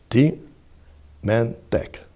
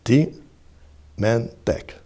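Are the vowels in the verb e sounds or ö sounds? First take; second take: e sounds; e sounds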